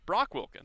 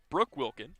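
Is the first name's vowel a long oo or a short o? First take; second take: short o; long oo. First: The first name has a short o vowel. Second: The first name has a long oo vowel. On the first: This is the player's real name. The speaker calls it right. "as we know him" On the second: This is how the announcer said it. The speaker calls it wrong. "if you heard it from the P A announcer"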